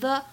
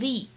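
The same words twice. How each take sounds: First: The article ends in a short 'uh' vowel. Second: The article ends in a long 'ee' vowel. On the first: The speaker calls it wrong. "不能够读成the" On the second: The speaker calls it right. "而应该读成the"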